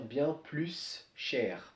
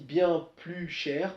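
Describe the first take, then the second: First: The s of plus is pronounced before cher. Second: The s of plus is silent before cher. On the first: The speaker calls it wrong. "pour éviter de dire bien plus cher, parce qu'on a S, la prononciation S, et derrière un ch" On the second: The speaker calls it right. "on dit bien plus cher"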